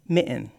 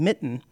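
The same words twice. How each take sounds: First: The middle T becomes a glottal stop pause. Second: The middle T is clearly pronounced. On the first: The speaker calls it wrong. "they say mitten" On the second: The speaker calls it right. "instead of saying mitten"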